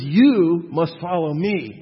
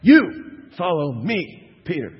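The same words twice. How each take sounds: First: Slow, loud, firm; Jesus redirecting Peter, slow and firm; firm command. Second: YOU hit hard, very slow and loud; Jesus cutting Peter off, hitting YOU slow and loud; very emphatic. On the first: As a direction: set each word down firmly. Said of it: "He says". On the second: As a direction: lean on YOU and stretch the line. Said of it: "very emphatic". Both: Retold or imitated.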